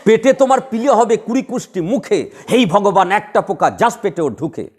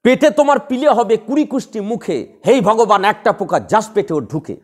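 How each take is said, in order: First: Slow verse curse, with each beat marked; slow rhythmic verse. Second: A curse recited in a measured beat; rhythmic verse curse. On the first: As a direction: spell out the rhythm slowly and deliberately. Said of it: "heavy standard বললাম". (ধীরে ছন্দ ধরে আবৃত্তি) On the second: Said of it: "তখনই তো ছন্দ হয়ে গেল". (ছন্দে বাঁধা অভিশাপ) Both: Shown as a demonstration.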